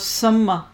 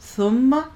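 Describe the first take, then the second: First: The first consonant is a hard s sound. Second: The first consonant is a soft th sound. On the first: The speaker calls it wrong. "ٹھیک نہیں بولا میں نے" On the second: The speaker calls it right. "اتنا سافٹ سا سب سے نرم ہے"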